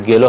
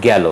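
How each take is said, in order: First: গেল with closed "e"; closed first vowel. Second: গেল with open "ae"; গেল with "ae" as in "cat"; open first vowel. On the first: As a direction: say গেল as "gelo". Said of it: "হবে না". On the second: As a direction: say গেল as "gaelo". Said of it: "উচ্চারণ হবে". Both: Shown as a demonstration.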